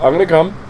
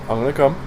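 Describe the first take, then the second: First: It is said in a squeaky, high-pitched voice. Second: It is said in a plain, normal voice.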